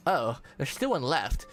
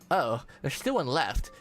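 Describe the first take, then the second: First: It is said in a put-on Valley Girl voice. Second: It is said in a put-on Valley Girl voice.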